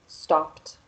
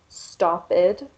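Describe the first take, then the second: First: The ending is pronounced as a short 't' sound. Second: The ending is pronounced as an extra 'id' syllable. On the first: The speaker calls it right. "stopped with the T sound" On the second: The speaker calls it wrong. "with the id sound"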